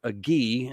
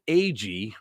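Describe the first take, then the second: First: "Agee" as uh-GHEE, with a hard g; alternative pronunciation. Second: "Agee" as AY-jee, with a soft g; first pronunciation guess. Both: Shown as a demonstration. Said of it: "or Agee".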